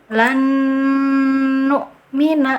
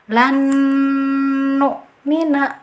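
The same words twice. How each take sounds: First: The n merges with a nasal held two counts. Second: The n merges with a nasal held two counts.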